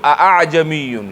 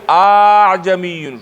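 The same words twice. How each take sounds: First: The second glottal stop is fully pronounced. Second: The second glottal stop becomes a long vowel. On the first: "که حمزه ویو" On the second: "که الف ویو"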